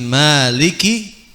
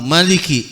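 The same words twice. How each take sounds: First: The vowel after the m is long. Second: The vowel after the m is short. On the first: "bi isbatil alif" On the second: "bi hadzfil alif"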